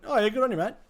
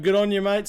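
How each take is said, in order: First: "good on you, mate" slurred into a single word; higher pitch, no gaps between the words of "good on you, mate"; run together as one word. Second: Said in the usual way. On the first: Shown as a demonstration. Streamer shows Aussie phrase sounding like one word, "good on you, mate" run together. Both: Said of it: "sound like a one word".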